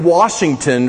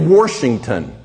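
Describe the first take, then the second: First: It is said without an extra r sound. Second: It is said with an extra r sound. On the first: "We don't say Washington" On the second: "They put an R in certain words that's not there"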